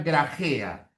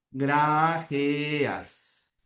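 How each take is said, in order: First: Said in the usual way. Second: "Grajeas" slowly drawn out, syllable by syllable. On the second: Shown as a demonstration. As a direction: sound out "Grajeas" for a class. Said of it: "La transcripción sería así".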